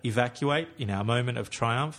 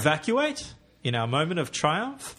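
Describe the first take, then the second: First: The pitch stays fairly level across the line. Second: The pitch moves a lot across the line. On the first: The speaker calls it right. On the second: The speaker calls it wrong.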